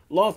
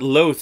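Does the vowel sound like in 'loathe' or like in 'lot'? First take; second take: lot; loathe. First: The vowel is short, as in 'lot'. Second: The vowel is long, as in 'loathe'. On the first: The name recalls a biblical story of punishment. The speaker calls it right. "sounds a lot like Lot" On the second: The name suggests hatred. The speaker calls it wrong. "Loth sounds like loathe"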